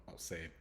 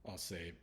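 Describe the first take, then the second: No difference in how they are said.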